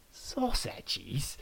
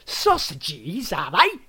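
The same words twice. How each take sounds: First: Soft, falling mock question; taunting. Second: Rising, louder mocking sausages; loud taunt. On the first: Adam repeats the guest's word, softly taunting. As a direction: echo the word with quiet scorn. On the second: Adam mocks the guest's word, loud and rising. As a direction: fling it back at him, mocking. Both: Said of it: "taunted Adam".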